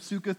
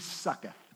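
First: The name is said in its usual way. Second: The name is bent to sound like 'sucks'.

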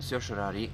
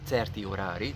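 First: The word is pronounced with English-style sounds. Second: The word is pronounced with Hungarian-style sounds.

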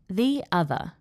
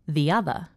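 First: The words are said slowly and separately. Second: The words are joined by a gliding Y sound. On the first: "I'm going to say it slowly" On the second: "Then I will say it with intrusion"

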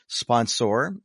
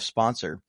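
First: The ending sounds like 'saur' in dinosaur. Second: The ending sounds like an ordinary 'sor'. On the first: It is a playful, silly version of the word. "I do something silly. I want to have some fun and I say sponsor" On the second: It is the normal version of the word. "instead of sponsor"

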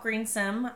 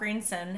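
First: The name ends with an m sound. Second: The name ends with an n sound. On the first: The speaker calls it wrong. "not M" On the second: The speaker calls it right. "it's son with an N"

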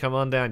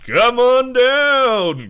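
First: It is said in a plain, everyday voice. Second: It is said in a booming announcer voice. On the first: The speaker calls it wrong. "you just can't be like, hey, come on down" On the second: The speaker calls it right. "you immediately have to just put in the voice"

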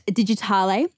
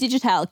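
First: The name is said with a European-sounding ending. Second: The name is said with a plain English ending. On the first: The speaker calls it wrong. "A lot of people call it Digitale, and I have to laugh. ... it's very Euro" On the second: The speaker calls it right. "but no, it's definitely Digitale, can confirm"

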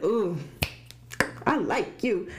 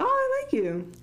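First: It sounds flirtatious and romantically interested. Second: It sounds casual and merely friendly.

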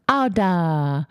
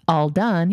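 First: The words are reduced to simple baby sounds. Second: The words are said clearly and fully. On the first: The speaker calls it wrong. "he says, ah, duh. We know what he's saying, but obviously it's not going to be perfect" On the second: The speaker calls it right. "instead of all right, all right, or all done"

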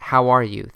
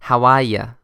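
First: It is said in a standard American accent. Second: It is said in a Boston accent.

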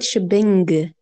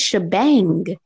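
First: The word ends with an 'ing' sound. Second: The word ends with an 'ang' sound. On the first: The speaker calls it wrong. "you said shebing, not an ang" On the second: The speaker calls it right. "I think it's shebang"

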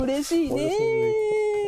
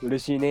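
First: The final syllable is drawn out long. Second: The final syllable is short and clipped.

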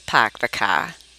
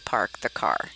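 First: The R sounds are dropped, Boston style. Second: The R sounds are clearly pronounced. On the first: This is the local accent that was forbidden. The speaker calls it wrong. "we weren't allowed to" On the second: This is the form the family insisted on. The speaker calls it right. "There is an R in that word"

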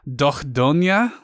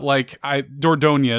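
First: The name is said with its native pronunciation. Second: The name is said with an English pronunciation. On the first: "Apparently it's Dordogne" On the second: "is the way you would say it in English"

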